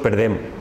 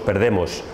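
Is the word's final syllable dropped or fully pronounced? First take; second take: dropped; full. First: The final syllable is dropped. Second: The final syllable is fully pronounced. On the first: The speaker calls it wrong. "decimos perdem" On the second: The speaker calls it right. "no decimos perdemos"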